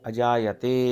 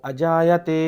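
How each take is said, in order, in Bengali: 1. শব্দটি নিম্ন স্বরে বলা হয়েছে। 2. শব্দটি উচ্চ স্বরে বলা হয়েছে। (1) "লো পিচ" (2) "হাই পিচ"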